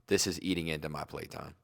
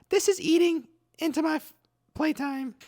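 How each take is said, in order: First: It is said in his normal voice. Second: It is said in a higher-pitched childlike voice.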